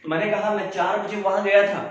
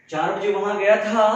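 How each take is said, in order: First: Said in the usual way. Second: "चार बजे" pushed louder to mark the point of time; stress on the time. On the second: Shown as a demonstration. Teacher repeats the example, stressing the time for students. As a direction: lean hard on "चार बजे". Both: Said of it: "क्या time, क्या add कर दिया".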